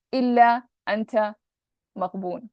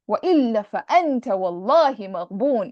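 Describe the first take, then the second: First: Said in the usual way. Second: Fast, loud, emphatic recitation; emotional emphasis. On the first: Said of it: "a different kind of speech when I just say". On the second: Shown as a demonstration. Teacher showing the author's emotional plea. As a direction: declaim it with full emotional force. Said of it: "It's like he's speaking like that".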